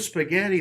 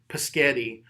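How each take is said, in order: First: The word starts with an s sound. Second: The word starts with a p sound. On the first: An adult models the word gently. The speaker calls it right. "I just repeat it to them correctly" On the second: A child is struggling to say the word. The speaker calls it wrong. "let's just say they say paschetti"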